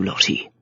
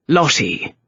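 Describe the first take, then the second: First: Low, soft and firm; quiet and stern. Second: Cold. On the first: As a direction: say her name softly to steady her. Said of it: "the Earl's stern, quiet voice". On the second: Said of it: "The cold voice of sanity". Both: A narrator's reading.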